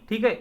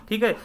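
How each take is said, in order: Both takes have the same delivery.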